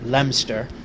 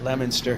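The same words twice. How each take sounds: First: The name is said in the British way. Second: The name is said in the American way. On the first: This is how the British town's name is said. "the British, they call their little hamlet of the same name Leominster" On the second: This is how locals in the States say it. "we pronounce it Leominster here in the States"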